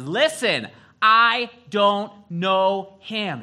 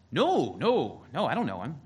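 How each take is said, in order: First: Loud, high, drawn-out acted shout; angry denial. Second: Raised, swooping retold denial; first denial. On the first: Cornered Peter swearing to the crowd, an angry acted shout. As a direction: shout it slowly, word by word, in anger. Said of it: "he starts getting angry". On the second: Peter answering the servant girl, a mock protest of innocence. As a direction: brush off the accusation, acting it out. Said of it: "Peter gets a little firmer".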